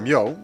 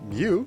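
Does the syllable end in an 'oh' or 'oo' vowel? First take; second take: oh; oo. First: The syllable ends in an 'oh' vowel. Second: The syllable ends in an 'oo' vowel. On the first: The speaker calls it right. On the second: The speaker calls it wrong. "I didn't say it correctly"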